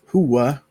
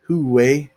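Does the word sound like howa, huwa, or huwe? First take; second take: huwa; huwe. First: It is said with an u vowel, ending in a. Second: It is said with an u vowel, ending in e. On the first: This is the standard form. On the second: This is how it is said in Syria, Palestine and Lebanon.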